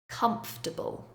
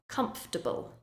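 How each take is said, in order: The two takes are said the same way.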